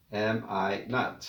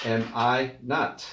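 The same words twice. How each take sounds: First: Slow, quieter "Am I not?"; slow soft repeat. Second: Slow, careful "Am I not?"; slow model phrase. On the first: Teacher to class, softly repeating the phrase. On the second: Teacher to class, slowly modelling the phrase. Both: Shown as a demonstration. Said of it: "no hay una contracción".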